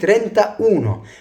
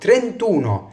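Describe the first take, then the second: First: The vowel is kept and both words sound separately. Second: The vowel is dropped and the words merge. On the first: The speaker calls it wrong. "مش بقول ترينتا اونو" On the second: The speaker calls it right. "بقول ترينتونو"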